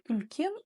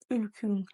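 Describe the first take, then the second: First: The second vowel sounds like 'e'. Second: The second vowel sounds like 'ü'. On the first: "не Ülken" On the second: "Часто в Казахстане вы можете услышать ... Ülkün"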